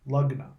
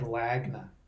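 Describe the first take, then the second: First: The first syllable sounds like 'lug'. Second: The first syllable sounds like 'lag'. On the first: It is said the way it is really pronounced. The speaker calls it right. "but it's pronounced Lugna" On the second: It is read the way it is spelled. The speaker calls it wrong. "It looks like Lagna"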